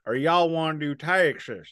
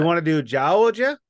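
First: Texan twang demo, pitched higher; Texas Southern accent. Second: Louder, higher Georgia accent demo; Georgia Southern accent. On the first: Co-host contrasts Southern accents for the other, Texas accent. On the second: Co-host shows there are different Southern accents, Georgia accent. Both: Shown as a demonstration. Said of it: "there's eight different Southern accents".

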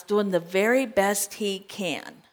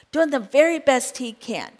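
First: Said in the usual way. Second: Very lifted and leaned on, falling after; stress on very. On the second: Shown as a demonstration. Preacher repeating to the congregation, stress on very. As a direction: repeat it, pressing on very.

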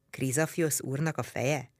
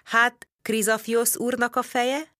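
First: Softer, baffled repetition of the question; puzzled echo. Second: Slow, higher, probing question; interrogating tone. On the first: Servant repeats the strange question back, puzzled and softer. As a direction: repeat it back, not understanding. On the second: Narrator questions the Greek servant in an interrogating tone. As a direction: press him for the answer, slowly. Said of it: "Vallató hangon folytattam". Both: A narrator's reading.

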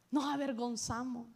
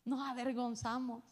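Both takes have the same delivery.

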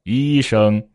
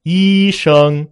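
First: Level tones at everyday pitch; middle key. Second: High, loud, level first tones; high key. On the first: Teacher showing it is the same word, in a middle key. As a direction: keep both syllables level without raising them. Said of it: "但是我说医生". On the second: Teacher showing relative pitch, word in a high key. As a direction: hold both syllables high and level. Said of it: "比如说我说". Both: Shown as a demonstration.

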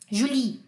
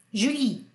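The two takes are said the same way.

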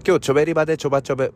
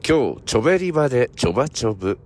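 First: Rapid gyaru chatter, run together; fast gyaru slang. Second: Slow model phrase. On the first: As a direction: rattle it off at full speed. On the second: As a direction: clear teacher demo at normal pace. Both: Shown as a demonstration. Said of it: "repeat after me".

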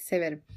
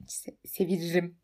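First: "Severim" said cleanly in three syllables, se-ve-rim; self-correction. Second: "seviririm" with an extra stumbling "-riri-" syllable; tongue slip. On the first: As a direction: correct the slip with a plain, falling "Severim". ("Severim" diye düzelterek, düz ve net) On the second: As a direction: start "Se-", then garble it into "seviririm". ("seviririm" diye dili sürçerek) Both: Real, not acted. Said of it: "Seviririm ne demek?".

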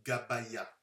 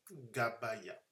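First: "gabaya" read slowly, syllable by syllable, ga-ba-ya. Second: Said in the usual way. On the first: Shown as a demonstration. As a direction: sound out "gabaya" carefully, as if deciphering letters. ("gabaya" lu lentement, syllabe par syllabe) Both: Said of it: "ça se dit gabaya".

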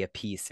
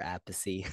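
First: "a piece" with stress on PIECE; two-syllable pronunciation. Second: Appice said "AP-pih-see"; three-syllable pronunciation. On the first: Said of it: "if you say a piece or". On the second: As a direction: stress the start of Appice, end in "see". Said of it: "or Appice". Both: Shown as a demonstration.

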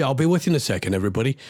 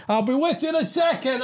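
First: Said in the usual way. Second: Much higher, strained exasperated cry; exasperated outburst. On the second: Real, not acted. Host venting at listeners mid-rant, much higher exasperated cry. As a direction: let the frustration burst out high. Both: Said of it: "I just need to get it off my chest".

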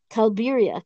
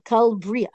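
First: Kalbiria with an extra i after the b; mispronounced Kalbiria. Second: Kalbria with b and r run together; corrected pronunciation. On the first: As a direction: slip into "kal-BI-ri-a" for Kalbiria. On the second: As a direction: fix it to "kal-BRI-a" for Kalbria. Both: Real, not acted.

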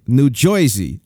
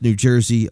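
First: Jersey said as "Joy-zee"; exaggerated old-time "Joy-zee" for Jersey. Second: Said in the usual way. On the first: Shown as a demonstration. Host reading a myth about locals, Jersey pronounced "Joy-zee". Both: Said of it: "we pronounce New Jersey like".

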